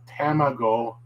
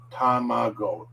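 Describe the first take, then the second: First: Tamago with the A like apple; the wrong English-style tamago. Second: Tamago with open ah vowels, tah-mah-go; the right Japanese tamago; correct tamago. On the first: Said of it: "T A is not". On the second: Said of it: "it's ta". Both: Shown as a demonstration.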